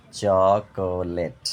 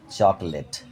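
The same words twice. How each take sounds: First: চকোলেট very slow as চ, কো, লেট; split in three syllables. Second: Said in the usual way. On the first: Shown as a demonstration. Teacher showing syllables, চকোলেট slowly in three parts. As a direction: stretch each beat of চকোলেট. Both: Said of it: "তিনবারে ভেঙে উচ্চারণ করা হয়".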